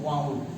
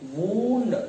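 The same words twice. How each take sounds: First: The vowel is an 'ow' sound. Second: The vowel is a long 'oo' sound. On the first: It is the past form of wind. "if we pronounce it as a wine, it will be in second form wound" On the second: It means an injury. "just like oo"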